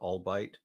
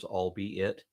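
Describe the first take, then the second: First: The word is said as two syllables. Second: The word is said as three separate parts. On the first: The speaker calls it wrong. "your pronunciation on the word, what you called albite" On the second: The speaker calls it right. "pronounced as if it were three words"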